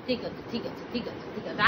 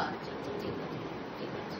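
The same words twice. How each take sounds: First: Low, softer reassurance; quiet soothing okay; soft comfort. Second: Barely voiced soothing okay; whispering. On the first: Comforting the crying child. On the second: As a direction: whisper it to settle her. Hushing the child to sleep. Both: Real, not acted.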